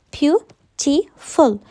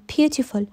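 First: "beautiful" very slowly, a pause after each syllable. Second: Said in the usual way. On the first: Shown as a demonstration. Teacher counting three syllables for students, "beautiful" slowly broken up. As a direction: pull "beautiful" apart into three beats. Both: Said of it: "here we have three syllables".

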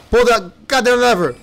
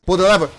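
First: Louder, higher frustrated shout; angry gamer yell; exasperated yell. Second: Frustrated urging. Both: Real, not acted.

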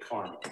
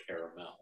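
First: "caramel" said as CAR-mul; two-syllable caramel. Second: "caramel" said as CARE-uh-mel; three-syllable caramel. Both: Shown as a demonstration. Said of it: "Say caramel, not caramel".

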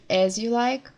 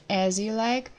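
No difference in how they are said.

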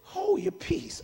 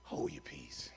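First: High, slow command; slow, high-voiced rebuke; drawn-out rebuke. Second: Very low, hushed command; deep, barely voiced order; quiet rebuke. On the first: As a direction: stretch the order out, pitched up high. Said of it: "He said". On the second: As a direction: rebuke softly, far under your breath. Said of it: "And Jesus rebuked him, saying".

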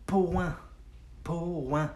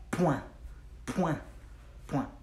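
First: "point" stretched into two parts, po-an; slowed down. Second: "point" quick, in one short syllable; said fast. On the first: Teacher breaking down the French word for learners, slow and drawn out. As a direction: sound out "point" slowly as po-an. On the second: Teacher showing learners the French word at speed, quick and short. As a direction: say "point" fast as a single pwan. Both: Shown as a demonstration. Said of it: "Say it fast".

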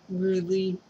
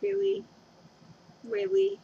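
First: Said in the usual way. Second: Much higher, incredulous Really; a hammed-up disbelieving Really; mock exasperated whine. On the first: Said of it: "Just kidding". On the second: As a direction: playfully fake outrage, pitched way up. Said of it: "I'm like".

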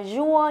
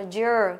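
First: "jour" with an u-like vowel, no long ơ; wrong vowel. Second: "jour" with a long, falling ơ sound; long ơ vowel. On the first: Teacher warns the class off a mistake, wrong vowel. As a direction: mispronounce "jour" with a "zu" sound. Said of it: "mình không đọc là jour nhá". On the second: Teacher corrects the first syllable, long ơ vowel. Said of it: "tức là âm ơ dài". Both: Shown as a demonstration.

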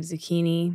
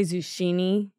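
First: Said in the usual way. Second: Zucchini said "zoo-SHEE-nee"; mispronounced zucchini. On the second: Acted. Guest admits mispronouncing words to the tester, zucchini said as "zoo-SHEE-nee". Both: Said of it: "I mispronounce words a lot".

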